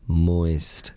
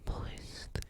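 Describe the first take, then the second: First: The word is said in a normal voice. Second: The word is whispered.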